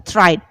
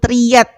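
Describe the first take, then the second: First: It is said with an English-style pronunciation. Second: It is said with an Indonesian-style pronunciation. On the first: The speaker calls it right. "kita mengucapkan dalam bahasa Inggris yang betul adalah tried" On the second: The speaker calls it wrong. "kita orang orang Indonesia yang nggak ngerti ngomong ... bahasa Inggris secara benar, itu bahasanya seperti tried gitu ya"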